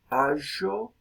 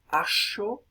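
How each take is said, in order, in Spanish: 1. La consonante del medio es un sonido sonoro. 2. La consonante del medio es un sonido sordo, como sh.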